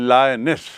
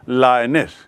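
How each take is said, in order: Both takes have the same delivery.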